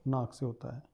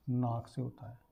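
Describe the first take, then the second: No difference in how they are said.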